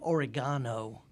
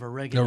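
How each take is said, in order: First: It is said with a British pronunciation. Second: It is said with an American pronunciation. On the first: It suits an audience in England. "when I'm in England, ... I have to say oregano" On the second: It is the speaker's usual way of saying it. "instead of oregano"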